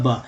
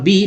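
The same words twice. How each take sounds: First: ब said as a short "buh"; letter sound. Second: बी said as the English letter name "bee". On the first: Teacher shows learners how B is read, as its sound. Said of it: "यहाँ पर लिखा हुआ है बी". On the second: Teacher reads the written letter to learners, as a letter name. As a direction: say बी with a long ee. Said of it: "लेकिन यहाँ पर लिखा हुआ है ब". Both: Shown as a demonstration.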